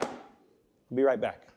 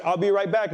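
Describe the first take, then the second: First: Detective leaving the suspect alone, slow and ominous; menacing detective. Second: Higher, brisk "I'll be right back"; quick, matter-of-fact exit line from the big detective; detective leaving the room, said briskly and higher; detective's brisk line. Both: Retold or imitated. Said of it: "He's like".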